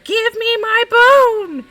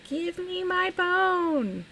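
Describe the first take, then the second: First: It is said in a louder voice. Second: It is said in a small, quiet voice.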